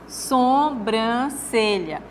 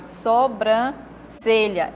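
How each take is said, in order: First: The first vowel is nasal. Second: The first vowel is oral. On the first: The speaker calls it wrong. "uma nasalização do O aqui pelo M" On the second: The speaker calls it right. "Esse é o certo"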